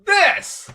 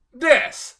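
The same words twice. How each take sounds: First: This! yelled high and loud in disbelief; indignant shout. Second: Said in the usual way. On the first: Real, not acted. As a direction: throw out This! as an outraged cry. Ranting about the film choice.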